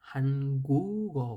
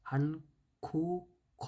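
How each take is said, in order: First: The middle consonant sounds like a soft g. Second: The middle consonant sounds like an aspirated k. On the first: The speaker calls it right. "হয়েছে" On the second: The speaker calls it wrong. "হয়নি"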